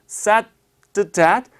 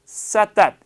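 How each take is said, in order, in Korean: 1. 천천히 하면 d가 들립니다. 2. 빨리 하면 d가 빠집니다. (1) "따라서 said that" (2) "더 빨리 하시면 said that 이 되죠"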